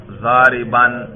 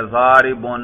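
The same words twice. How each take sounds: First: "ضارباً" voiced as zaa-ri-ban; accusative ending. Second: "ضارب" voiced as zaa-ri-bun; nominative ending. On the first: Teacher shows students the nasb ending, "ضارباً" said zaa-ri-ban. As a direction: end "ضارباً" on an open -an. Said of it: "نصب پر ذرا تلفظ کرو". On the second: Teacher shows students the raf' ending, "ضارب" said zaa-ri-bun. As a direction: end "ضارب" on a clear -un. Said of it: "اس کے رفع پر ہم تلفظ کر رہے ہیں". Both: Shown as a demonstration.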